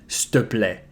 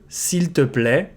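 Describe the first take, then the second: First: The first two words merge into one short 'ste'. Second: The first word is said fully as 'seel'.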